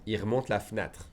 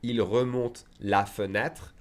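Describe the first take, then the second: First: Quick everyday French, E in fenêtre dropped; fast conversational pace. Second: Slow, every syllable sounded, fenêtre in full; slow careful teacher read; said slowly. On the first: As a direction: rattle it off as natives do. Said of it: "if I said fast". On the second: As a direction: spell it out slowly for a learner. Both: Shown as a demonstration.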